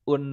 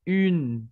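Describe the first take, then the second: First: The vowel is plain, like an Indonesian vowel. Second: The vowel is said with rounded, pouted lips. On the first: The speaker calls it wrong. "yang kayak bahasa Indonesia bukan" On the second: The speaker calls it right. "un agak manyun"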